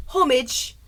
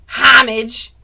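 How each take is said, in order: First: Slow "homage" as HOH-mij; British homage. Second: Loud "homage" as HAH-mij; American-style homage. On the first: Summing up versions, British "homage" as HOH-mij. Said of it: "as British people say". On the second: Summing up versions, loud "homage" as HAH-mij. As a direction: blare the first syllable of "homage". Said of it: "so we've got". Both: Shown as a demonstration.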